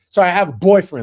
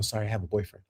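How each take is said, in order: First: It is said loudly, almost yelled. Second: It is said softly and gently. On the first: The refusal is made rudely and publicly. The speaker calls it wrong. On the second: The refusal is made politely. The speaker calls it right. "You could have whispered that"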